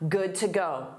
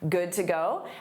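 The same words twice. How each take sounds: First: The pitch falls at the end. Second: The pitch rises at the end. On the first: It states that one is ready to leave. "this time as a statement, not as a question" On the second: It asks whether someone is ready to leave. "a rising intonation marks a question"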